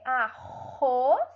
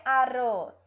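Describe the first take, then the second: First: "arroz" slowly with a throaty H-like R; guttural R in "arroz"; strong R. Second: "arroz" with a tapped R, like "aroz"; light tapped R in "arroz"; weak R. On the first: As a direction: split "a-RROZ", R rasped at the back. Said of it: "É forte". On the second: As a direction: mispronounce "arroz" loudly with a tongue-tip R. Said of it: "ou vai ter um som fraco". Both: Shown as a demonstration.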